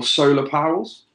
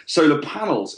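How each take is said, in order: First: Solar panels slurred into "solar powells"; "solar panels" tripping into "powells" by accident; fumbled pronunciation. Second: "Solar panels" said cleanly and deliberately; careful correction. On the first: Podcast host stumbling over a word to his cohost, slurred. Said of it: "God, they're not solar pa". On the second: Podcast host correcting his own slip for his cohost, careful. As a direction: fix the slip, "Solar panels" clearly pronounced. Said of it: "sorry, forgive me". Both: Real, not acted.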